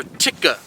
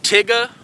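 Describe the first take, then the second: First: "Ticka" said lower and softer, quick tongue tap on the T and K; feeder call syllable. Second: "Tigga" said crisply, tongue tapping up and down; feeder call syllable. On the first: Instructor gives the alternate call syllable, soft "Ticka". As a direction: drop it softly: "Ticka". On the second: Instructor demos a duck call syllable, crisp "Tigga". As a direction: pitch it higher, a quick "Tigga" like a feeding duck. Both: Shown as a demonstration. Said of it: "I either say".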